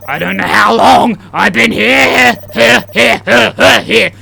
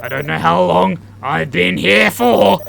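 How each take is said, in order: First: Loud, high, building to repeated cries; escalating panic. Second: Said in the usual way. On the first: Acted. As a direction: let the last word burst out repeatedly. Repeated line escalates into shouting.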